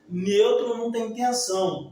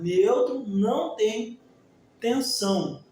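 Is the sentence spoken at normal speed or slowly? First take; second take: normal; slowly. First: It is spoken at a normal speed. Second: It is spoken slowly and deliberately.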